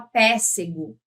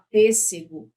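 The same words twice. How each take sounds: First: PÊSSEGO with an open first E, like "pé"; wrong open vowel. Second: PÊSSEGO with a closed first E; closed vowel. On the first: Teacher showing what you don't say, PÊSSEGO with open E. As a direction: say PÊSSEGO wrongly, as if written péssego. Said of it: "você não fala". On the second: Teacher correcting the wrong take, PÊSSEGO with closed E. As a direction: say PÊSSEGO properly, first E closed as the circumflex shows. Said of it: "fala pêssego". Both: Shown as a demonstration.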